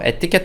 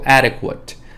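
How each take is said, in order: First: It is said with Korean loanword sounds. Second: It is said with English sounds. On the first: "뭐 에티켓 하셔도 되고" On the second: "adequate 정도 하셔도 될 것 같고요"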